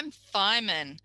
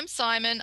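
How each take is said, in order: First: The s sounds come out lisped, like th. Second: The s sounds are crisp and clear. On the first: The speaker calls it wrong. "have a go saying it with the errors" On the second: The speaker calls it right. "I'll say it to you without the errors"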